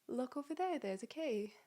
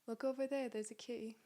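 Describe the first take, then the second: First: It has a strong British accent. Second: It has a mild British accent. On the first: "Do a little bit of a British accent" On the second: "Maybe a little, not so strong"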